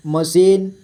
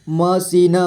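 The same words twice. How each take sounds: First: Said in the usual way. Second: मशीन as म, सी, न; letter by letter. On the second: Shown as a demonstration. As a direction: sound the final न of मशीन separately. (मशीन को तोड़कर: म, सी, न) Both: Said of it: "थोड़ा fast पढ़ेंगे".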